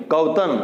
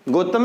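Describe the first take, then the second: First: गौतम said as "gautam" with a clear au; गौतम opening on a full au sound; correct pronunciation. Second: गौतम said as "gotam" with a plain o; the mistaken way: गौतम with a flat o; wrong pronunciation. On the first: Teacher showing students the right form, गौतम said as gautam. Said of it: "दो मात्रा लगेगी". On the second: Teacher correcting students' spelling habits, गौतम said as gotam. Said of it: "गौतम नहीं". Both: Shown as a demonstration.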